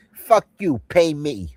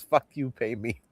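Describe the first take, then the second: First: Higher, louder mock mob demand; higher, louder hammed-up mobster line. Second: Said in the usual way. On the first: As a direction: spit it out pitched up and louder. Quoting famous line. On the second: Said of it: "Remember that?".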